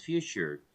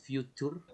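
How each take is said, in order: First: "future" with CH, fju-chur; right future. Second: "future" with a hard T, fju-tur; wrong future. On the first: Teacher showing Laura the right "future", with CH. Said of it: "pero decimos future". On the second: Teacher showing Laura the wrong "future", fju-tur. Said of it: "no decimos future". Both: Shown as a demonstration.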